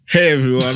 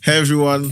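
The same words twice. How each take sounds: First: It is said in a put-on urban voice. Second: It is said in his normal voice.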